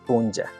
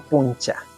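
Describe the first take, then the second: First: The middle consonant is a voiced j-like sound. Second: The middle consonant is a voiceless ch sound. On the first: The speaker calls it right. "La pronunciación, Ali Punja" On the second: The speaker calls it wrong. "No Puncha. La escritura sí"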